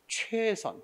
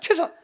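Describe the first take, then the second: First: The first vowel is drawn out long. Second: The first vowel is short and clipped. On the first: It conveys an act that takes time and effort. The speaker calls it right. "길게 읽는 거야" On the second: It sounds flippant, as if no effort is involved. The speaker calls it wrong. "이렇게 하면 너무나 경박하지"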